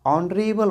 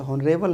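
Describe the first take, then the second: First: ऑनरेबल starting on the vowel; silent h. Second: हॉनरेबल with a voiced h; wrong H sound. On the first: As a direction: say ऑनरेबल with the h dropped. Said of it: "ऑनरेबल बोलते हैं". (ऑनरेबल, एच silent) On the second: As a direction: say हॉनरेबल pronouncing the H. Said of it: "हॉनरेबल नहीं बोलते हैं". (हॉनरेबल, एच बोलकर) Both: Shown as a demonstration.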